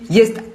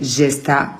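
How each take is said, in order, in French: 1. Le nom commence par un son 'y'. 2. Le nom commence par un son 'zh' français. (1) "le J se prononce I, donc c'est Yesta" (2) "tout le monde a toujours prononcé Gesta"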